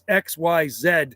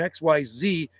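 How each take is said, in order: First: The letters are said the Canadian way. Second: The letters are said the American way. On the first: "in Canada" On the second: "in the States"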